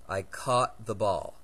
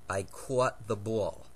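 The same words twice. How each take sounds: First: It is said in a mixed Mid-Atlantic-Californian accent. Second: It is said in a New Jersey accent. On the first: "Now here's how I pronounce the words" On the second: "Here's how my mother pronounces these two words. As noted, she's from New Jersey"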